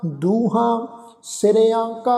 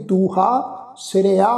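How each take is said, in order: First: Slow ਦੂਹਾਂ ਸਿਰਿਆਂ ਕਾ, nasal "aan" on the first two; nasalised endings. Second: ਦੂਹਾ ਸਿਰਿਆ with oral final "aa"; no nasalisation. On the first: Teacher models reading with bindi, nasalised ਦੂਹਾਂ ਸਿਰਿਆਂ ਕਾ. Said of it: "ਬਿੰਦੀ ਸਹਿਤ ਉਚਾਰਨ ਕਰਨਾ". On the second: Teacher warns against dropping bindi, un-nasalised ਦੂਹਾ ਸਿਰਿਆ. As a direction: keep the endings of ਦੂਹਾ ਸਿਰਿਆ out of the nose. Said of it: "ਇਸ ਢੰਗ ਨਾਲ ਉਚਾਰਨ ਨਹੀਂ ਕਰਨਾ". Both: Shown as a demonstration.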